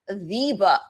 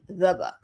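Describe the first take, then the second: First: The word 'the' is stressed with a full vowel. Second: The word 'the' is reduced to a schwa.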